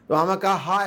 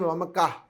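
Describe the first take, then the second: First: The word ends with a full extra 'ha' syllable. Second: The word ends with a short breathy 'h'. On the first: The speaker calls it wrong. "ऐसा नहीं" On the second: The speaker calls it right. "इस तरह से, because वो flow में जाना है ना"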